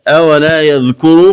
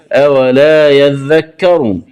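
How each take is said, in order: First: Said in the usual way. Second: يذكر said slowly as "yadhdhakkaru"; doubled letters. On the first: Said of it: "قرأها بفتح الذال". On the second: Shown as a demonstration. Teacher showing the variant, slow doubled يذكر. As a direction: double dhal and kaf in يذكر, both with a. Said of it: "بفتح الذال والكاف وتشديدها".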